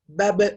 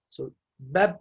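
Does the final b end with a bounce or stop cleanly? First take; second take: bounce; clean. First: The final b ends with a short echoing bounce. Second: The final b stops cleanly with no echo. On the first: "you're gonna pronounce it with qalqala like this" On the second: "Don't give any other thing"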